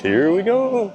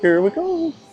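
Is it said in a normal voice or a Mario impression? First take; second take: normal voice; Mario impression. First: It is said in his normal voice. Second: It is said in a Mario impression voice.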